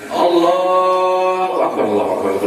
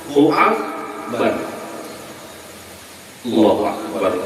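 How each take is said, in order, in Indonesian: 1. Kedua frasa itu menyambung tanpa jeda. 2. Jeda yang jelas memisahkan kedua frasa. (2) "bertahan satu mat"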